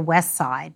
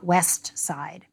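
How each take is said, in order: First: The t at the end of west is dropped. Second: The t at the end of west is pronounced. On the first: "We all typically say west side" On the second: "not west side"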